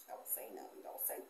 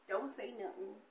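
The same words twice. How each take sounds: First: Whispered, much softer. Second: Said in the usual way. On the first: Real, not acted. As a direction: whisper it like a secret aside. Aside about dry hands.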